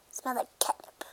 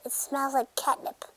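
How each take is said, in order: First: Hushed whisper about catnip. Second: Said in the usual way. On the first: Pretend. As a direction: breathe it as a secret. Line repeated as whisper.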